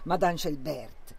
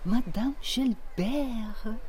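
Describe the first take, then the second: First: The name is said with a German accent. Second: The name is said with a French accent. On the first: The speaker calls it wrong. "Non alla tedesca" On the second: The speaker calls it right. "con quell'accento francese"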